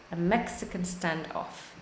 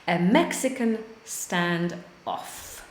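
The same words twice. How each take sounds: First: Softer repeat. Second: Slow model phrase. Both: Shown as a demonstration.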